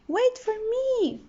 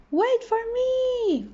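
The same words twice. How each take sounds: First: High, small voice calling after friends; a tiny fish pleading to wait; little fish crying out. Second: High, slow, stretched-out call; a small fish yelling after friends; shouting. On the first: Little fish calls after his friends, high and small. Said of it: "cried little fish". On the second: Little fish shouts after friends swimming off, high and drawn out. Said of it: "shouted little fish". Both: A narrator's reading.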